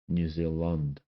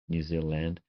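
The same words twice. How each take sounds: First: The vowel in 'land' sounds like 'u'. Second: The vowel in 'land' sounds like 'a'. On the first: "for some New Zealanders, it's Lund" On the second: "I try to I try to say land"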